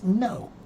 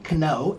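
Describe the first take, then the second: First: The K is silent before the N. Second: The K is pronounced before the N. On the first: This is the modern English pronunciation. The speaker calls it right. "it's no" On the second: This is the old Northern European pronunciation. The speaker calls it wrong. "It's not kno"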